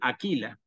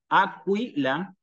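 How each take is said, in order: First: The 'qu' is said as a plain 'k' sound. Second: The 'qu' is said as a 'kw' sound. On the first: The speaker calls it wrong. "la inclinación natural a pronunciar la Q con la U como lo leeríamos en español" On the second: The speaker calls it right. "con la U, se tiene que leer como Q, en este caso Acu"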